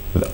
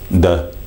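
First: The word begins with a buzzing 'th' sound. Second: The word begins with a hard 'd' sound. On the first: The speaker calls it right. "as opposed to those, the" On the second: The speaker calls it wrong. "just be mindful that you could be saying those things, the"

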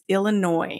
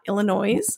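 First: The word ends without an S sound. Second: The word ends with an S sound. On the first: The speaker calls it right. "There is an S on the end of that state name, but we do not pronounce it" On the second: The speaker calls it wrong. "a lot of people mispronounce this"

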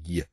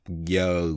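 First: The sound is clipped short. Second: The sound is drawn out long. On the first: The speaker calls it right. "mà đọc giờ, giờ, nó ngắn" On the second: The speaker calls it wrong. "không có đọc giờ nguyên một cái hơi dài như vậy"

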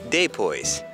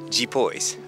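First: It is said in a Northeastern accent. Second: It is said in a São Paulo accent. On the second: "Em São Paulo, eles falam"

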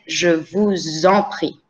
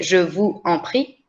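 First: A z sound links vous to en. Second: Vous and en are said separately, with no z link. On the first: The speaker calls it right. "it creates the linkage between de vous and the en" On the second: The speaker calls it wrong. "that's why you don't say je vous en prie"

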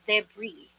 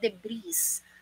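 First: The final s is silent. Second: The final s is sounded. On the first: The speaker calls it right. "But the correct pronunciation for this one is debris" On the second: The speaker calls it wrong. "Hindi mo po pwedeng sabihin debris"

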